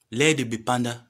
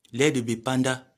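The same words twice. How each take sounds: The two takes are said the same way.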